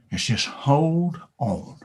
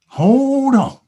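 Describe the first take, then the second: First: Slow, choked-up 'hold on'; teary, slowed advice; tearful plea. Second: Higher and louder 'Hold on' called out; impassioned shout; urgent cry. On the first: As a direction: let the voice catch on the words. Cow's advice, emotional. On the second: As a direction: belt the repeat. Cow repeats advice, emphatic. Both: Acted.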